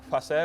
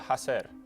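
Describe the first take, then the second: First: The word begins with an f sound. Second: The word begins with a breathy h sound. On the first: This is the older form of the word. "that F at the beginning of words got weakened" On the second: This is the later, intermediate form of the word. "an intermediate phase where it went from facer to hacer"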